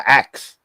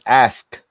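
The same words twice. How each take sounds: First: The k sound comes before the s. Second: The s sound comes before the k. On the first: The speaker calls it wrong. "the simplest one that we all make wrong" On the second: The speaker calls it right. "and it's ask. You know, with an A S"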